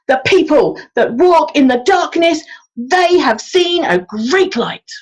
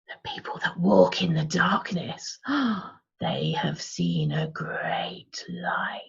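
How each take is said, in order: First: It is said loudly, like a street-corner proclamation. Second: It is said in an eerie, unsettling tone. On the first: "like we were proclaiming it" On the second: "What about creepy?"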